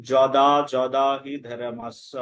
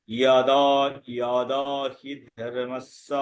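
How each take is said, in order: First: Slow যদা with an initial j sound; Bengali pronunciation. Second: Slow ইয়াদা with an initial y sound; Sanskrit pronunciation. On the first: Teacher quotes the familiar Gita verse, যদা with j. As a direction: recite যদা slowly as joda. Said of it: "যেমন আমরা বলি". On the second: Teacher models the corrected Gita verse, ইয়াদা with y. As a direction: recite ইয়াদা slowly as yada. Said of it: "সেই ক্ষেত্রে কি উচ্চারণ করব". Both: Shown as a demonstration.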